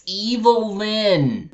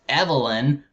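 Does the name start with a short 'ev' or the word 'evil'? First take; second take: evil; short ev. First: It sounds like the word evil, then Lyn. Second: It sounds like the ordinary name Evelyn. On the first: The speaker calls it right. "it's Evil Lyn" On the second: The speaker calls it wrong. "I thought it was pronounced Evelyn, but no"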